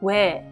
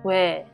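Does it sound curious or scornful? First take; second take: scornful; scornful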